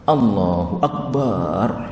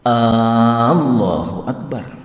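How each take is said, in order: First: The vowel in bar is drawn out. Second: The opening A vowel is drawn out. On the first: It names a drum instead. "bar, jadi akbar, itu yang dipanjangkan. Itu juga salah" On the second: It asks whether God is great. "jangan sampai memanjangkan huruf A-nya sehingga Allahu Akbar. Itu adalah salah"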